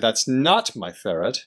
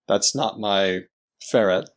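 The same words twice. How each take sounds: First: One word carries extra prominence. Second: It is said plainly, with no special prominence.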